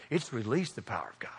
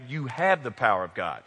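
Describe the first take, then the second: First: Whispery, low, with "release" leaned on; hushed stress on release. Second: "have" leaned on, in a lower voice; stress on have. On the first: Preacher giving today's challenge, "release" stressed in a hush. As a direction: sink to a whisper, weighting "release". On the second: Preacher telling church what they hold, "have" stressed firmly. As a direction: put the weight on "have". Contrasts having power with releasing it. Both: Real, not acted.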